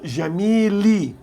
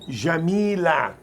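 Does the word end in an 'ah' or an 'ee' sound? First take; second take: ee; ah. First: The word ends in an 'ee' sound. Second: The word ends in an 'ah' sound. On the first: The speaker uses a Lebanese accent. "in Lebanon, where my parents came from, uh, we say" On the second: "many Arabs do say"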